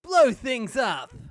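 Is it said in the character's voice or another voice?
another voice. It is said in a voice unlike the character's.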